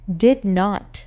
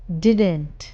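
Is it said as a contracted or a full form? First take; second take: full; contracted. First: Both words are said fully and separately. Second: The words are merged into one short word.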